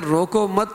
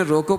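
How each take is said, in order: First: روکو مت as one raised unit; stop after مت. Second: روکو alone with a rising end; stop on روکو. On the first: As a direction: tie مت onto روکو, higher, then stop. (روکو مت پر وقف) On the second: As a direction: say روکو as a phrase by itself. (روکو پر وقف) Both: Shown as a demonstration. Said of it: "پر وقف کیا".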